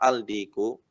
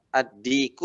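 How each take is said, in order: First: The L is heard clearly before the D. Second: The L is blended into a doubled D sound. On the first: The speaker calls it wrong. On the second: The speaker calls it right.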